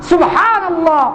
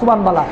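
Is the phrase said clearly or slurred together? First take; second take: clearly; slurred. First: The phrase is said clearly, with every sound articulated. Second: The phrase is slurred, sounding like subhan bala.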